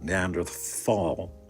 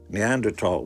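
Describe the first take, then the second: First: The middle consonant is a soft th sound. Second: The middle consonant is a hard t sound. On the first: The speaker calls it wrong. "it's not Neanderthal, even though it's spelled with a T H" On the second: The speaker calls it right. "that's actually the way you pronounce the word"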